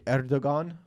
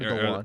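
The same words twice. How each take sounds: First: The g sound in the middle is pronounced. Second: The g sound in the middle is silent. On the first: The speaker calls it wrong. "people say Erdogan" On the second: The speaker calls it right. "It's actually"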